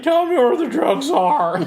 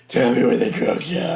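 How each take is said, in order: First: High, loud, slow strained growl with a laugh; Batman voice. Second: Batman voice. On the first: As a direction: shout it as an over-the-top Batman. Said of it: "how did Batman find his voice". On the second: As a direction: deliver it gruff after clearing the throat. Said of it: "a lump in his throat". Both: Retold or imitated.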